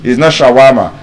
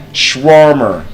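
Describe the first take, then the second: First: "shawarma" with flat a's, sha-wa-ma; the local "shawarma"; wrong shawarma. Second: "shawarma" as shwor-mer, first vowel dropped; correct shawarma. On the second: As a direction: model "shawarma" with r-colouring. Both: Shown as a demonstration.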